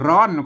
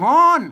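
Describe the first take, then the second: First: The word begins with an r sound. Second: The word begins with an h sound. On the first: This is the Standard Thai form. "ไทยก็ร้อน" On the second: This is the Northern Thai form. "เมืองก็ฮ้อน"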